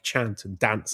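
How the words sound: It is said in a Devon accent. "they got the Devon accent, so they would also say like chant and dance"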